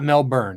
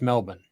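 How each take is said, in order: First: The last syllable sounds like a full 'burn'. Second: The last syllable is reduced, with no 'r'. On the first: The speaker calls it wrong. "it's not Melbourne" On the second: The speaker calls it right. "it's just Melbourne. You got to learn to say it Australian style"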